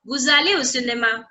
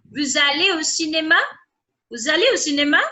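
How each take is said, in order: First: Said in the usual way. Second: "Vous allez au cinéma" asked with a lift at the end; questioning intonation. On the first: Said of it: "C'est une phrase". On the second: Shown as a demonstration. Teacher demonstrating voice modulation to students, questioning intonation. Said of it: "That's a question".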